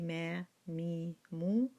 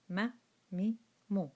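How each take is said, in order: First: The vowels are drawn out long. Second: The vowels are kept short. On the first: The speaker calls it wrong. "we do not say ma mi mu. There will be mad" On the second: The speaker calls it right. "No mad whatsoever"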